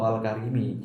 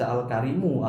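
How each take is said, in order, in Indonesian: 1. Kata itu diakhiri dengan vokal i. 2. Kata itu diakhiri dengan vokal u. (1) "tidak boleh dibaca ... atau al karimi" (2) "tidak boleh dibaca al karimu"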